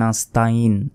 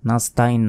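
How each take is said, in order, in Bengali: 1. গলার গভীর থেকে আসা ain ধ্বনিটি 'in'-এর আগে আসে। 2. 'in'-এর আগে কোনো গলার ধ্বনি নেই। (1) "এখানে আমরা বলি নাস্তাইন" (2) "নাস্তাইন নয়"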